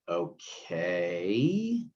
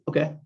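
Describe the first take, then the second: First: It sounds unsure and questioning. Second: It sounds confident and settled.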